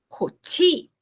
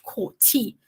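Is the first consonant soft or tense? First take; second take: soft; tense. First: The first consonant is soft and relaxed. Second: The first consonant is strong and tense. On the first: The speaker calls it wrong. "o jeito que você falou, por exemplo, coti é muito suave" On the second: The speaker calls it right. "é forte"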